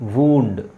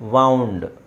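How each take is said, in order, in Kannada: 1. ಈ ಸ್ವರ 'moon' ನಲ್ಲಿರುವ 'oo' ತರ ಇದೆ. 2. ಈ ಸ್ವರ 'cow' ನಲ್ಲಿರುವ 'ow' ತರ ಇದೆ. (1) "ವೂಂಡ್ ಅಂದರೆ ಗಾಯ" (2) "ವೌಂಡ್ ಅಂದರೆ ಸುತ್ತಿರುವ"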